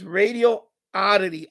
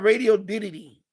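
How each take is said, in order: First: The name ends with the sound 'oddity'. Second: The name ends with the sound 'diddy'. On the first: The speaker calls it right. "It's Radio Oddity" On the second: The speaker calls it wrong. "It's not Radio Diddy"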